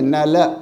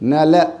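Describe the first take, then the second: First: The final l is followed by a short vowel. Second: The final l is followed by a short vowel.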